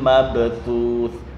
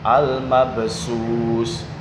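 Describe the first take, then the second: First: The final consonant is a TH sound. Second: The final consonant is an S sound. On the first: The speaker calls it right. "ini adalah huruf fa" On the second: The speaker calls it wrong. "dibaca sin atau shin"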